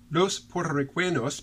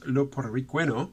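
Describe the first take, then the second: First: Every final s sound is pronounced. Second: The final s sounds are dropped.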